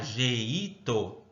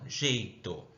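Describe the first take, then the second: First: The vowels 'e' and 'i' are split apart. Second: The vowels 'e' and 'i' form one syllable. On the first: The speaker calls it wrong. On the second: The speaker calls it right.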